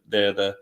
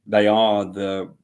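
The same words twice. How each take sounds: First: Said in the usual way. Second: "they are the" said slowly, each word spelled out; "they are the" pulled apart and leaned on; slow, stressed they are the. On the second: Shown as a demonstration. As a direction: stretch out "they are the" with weight on "they".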